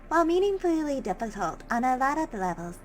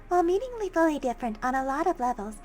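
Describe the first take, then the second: First: The voice is pitched lower. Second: The voice is pitched higher.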